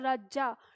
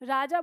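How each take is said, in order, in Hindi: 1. j की ध्वनि देर तक खिंची हुई और द्वित्व है। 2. j की ध्वनि छोटी और एकल है। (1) "डबल करके बोलते हैं" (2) "राजा बोलना"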